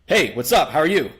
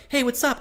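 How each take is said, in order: First: Louder, level confident greeting; steady from above, not fake masculine; breaking rapport. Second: Much higher eager greeting; trying for rapport. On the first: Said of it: "And now you're like". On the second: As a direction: lift it way up to be liked. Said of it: "trying for rapport". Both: Shown as a demonstration.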